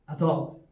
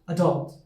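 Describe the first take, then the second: Both takes have the same delivery.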